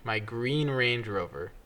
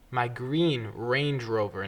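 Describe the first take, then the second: First: Slow with stress on "green"; slow repeat. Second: Each word slow and deliberate, stress on green; slow emphatic. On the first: Repeating the correction to her friend, slowly stressing green. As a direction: repeat "My green Range Rover" slowly, weight on "green". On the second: Correcting her friend, slowly stressing the car. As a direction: spell out "My green Range Rover" slowly. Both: Shown as a demonstration. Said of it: "Do you need a visual?".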